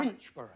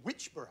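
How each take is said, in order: First: Winchborough repeated with the n sound, copying the contestant; getting Winchborough right on the second try; corrected place name. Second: Winchborough said as "Witchborough", dropping the n; mispronounced place name. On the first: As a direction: Winchborough said carefully, the way a local says it. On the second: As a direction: Winchborough slurred with no n sound. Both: Shown as a demonstration. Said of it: "I knew I'd get that wrong".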